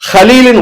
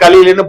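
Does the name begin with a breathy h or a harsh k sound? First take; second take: breathy h; harsh k. First: The name begins with a breathy h sound. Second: The name begins with a harsh k sound. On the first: It means a close, dear friend. The speaker calls it right. "ஹலீலுன்னு வரணும்" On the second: It means a foolish person. The speaker calls it wrong. "புத்தி இல்லாதவன், அறிவு குறைஞ்சவன் அர்த்தம்"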